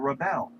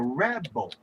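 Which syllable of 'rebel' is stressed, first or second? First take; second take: second; first. First: The stress is on the second syllable. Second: The stress is on the first syllable. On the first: The speaker calls it wrong. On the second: The speaker calls it right. "put the accent on the first syllable, you have created a noun"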